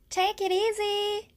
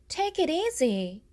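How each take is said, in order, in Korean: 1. 가볍고 친근하게 들려요, 헤어질 때 하는 말 같아요. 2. 달래듯 차분하게 들려요, 누군가를 진정시키려는 느낌이에요. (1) "안녕, 잘 지내?" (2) "진정해"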